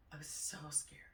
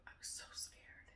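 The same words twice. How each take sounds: First: Said in the usual way. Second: Breathless whisper. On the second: Real, not acted. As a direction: whisper it, still shaken. Reliving a frightening memory.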